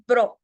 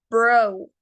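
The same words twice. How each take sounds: First: BRO with a short pure O, no glide; short clipped O. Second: BRO with a long O gliding into a faint U. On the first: English teacher showing students the wrong way, short-O "bro". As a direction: say "bro" the wrong way, ending on a bare O. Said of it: "no es bro". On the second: English teacher modelling the correct word for students, long-O "bro". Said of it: "Termina en una U más o menos silenciada". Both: Shown as a demonstration.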